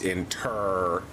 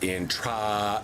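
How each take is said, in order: First: The second syllable sounds like 'ter'. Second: The second syllable sounds like 'tra'. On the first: The speaker calls it right. "it's in ter esting" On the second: The speaker calls it wrong. "it is not in tra"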